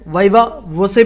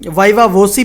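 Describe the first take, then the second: First: The last syllable sounds like 'say'. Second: The last syllable sounds like 'see'. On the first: "viva वोसे भी बोला जाता है" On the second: "viva वोसी भी बोला जाता है"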